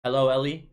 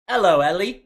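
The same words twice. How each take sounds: First: Said in the usual way. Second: Shouted Hello, Ellie, pitched way up and louder; loud high greeting. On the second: Shown as a demonstration. Greeting a fan named Ellie on stream, loud and high. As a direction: belt out Hello, Ellie like a big hype call. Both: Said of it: "You say".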